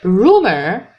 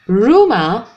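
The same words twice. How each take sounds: First: It is said in an American accent. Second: It is said in a British accent. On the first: "In American English we say rumor" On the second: "And in British English we say rumor"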